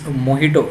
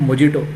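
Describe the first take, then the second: First: The middle consonant is said as an h sound. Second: The middle consonant is said as a j sound. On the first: The speaker calls it right. "It's Mojito. ... you have to spell as H" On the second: The speaker calls it wrong. "It's not Mojito. It is written as J there"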